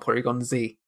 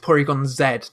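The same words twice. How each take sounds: First: The letter Z is said as zee. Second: The letter Z is said as zed. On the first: The speaker calls it wrong. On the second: The speaker calls it right. "There is another one which I am kind of set on"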